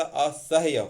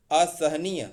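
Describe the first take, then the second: First: असह्य with HYA at the end, slow; correct form असह्य. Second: असहनीय with a NEE-ya ending; wrong form असहनीय. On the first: Teacher corrects असहनीय, slow correct form. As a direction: say असह्य slowly, a-sah-ya. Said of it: "असह्य होता है". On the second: Teacher shows the rejected word, mistaken form. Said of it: "तो असहनीय नहीं होता". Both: Shown as a demonstration.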